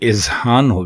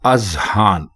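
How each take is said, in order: First: The word begins with an i vowel. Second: The word begins with an a vowel. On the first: The speaker calls it wrong. "अलिफ के नीचे जेर लगा देते हैं ... जो कि बिल्कुल गलत है" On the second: The speaker calls it right. "दुरुस्त लफ्ज है अजहान, यानी अलिफ के ऊपर जबर है"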